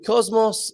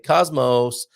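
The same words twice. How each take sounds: First: The word is said in a non-American accent. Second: The word is said in an American accent.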